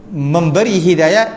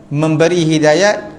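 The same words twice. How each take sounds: No difference in how they are said.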